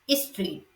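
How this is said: The opening consonant cluster is broken up. "Sri Lankan English, we say street"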